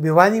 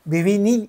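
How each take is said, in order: First: The name's second vowel is a long 'aa'. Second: The name's second vowel is a short 'i'. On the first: This is how people commonly say it. "आपण भिवानी म्हणतात" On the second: This is how it is properly pronounced. "भिविनी असं त्याचा उच्चार होईल"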